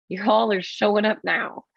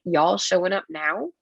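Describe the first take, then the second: First: "Y'all are showing up now." falling at the end, flat and sarcastic; flat sarcastic statement. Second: "Y'all showing up now?" rising at the end as a real question; incredulous question. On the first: Scoffing at police arriving late, falling sarcastic statement. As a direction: state it dryly, dropping on "now". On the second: Scoffing at police arriving late, rising disbelieving question. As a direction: ask it with a disbelieving rise on "now". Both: Retold or imitated. Mocking late SWAT at airport.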